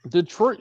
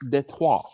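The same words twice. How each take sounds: First: It is said with an English pronunciation. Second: It is said with a French pronunciation. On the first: This is the usual local way. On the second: This is the original way.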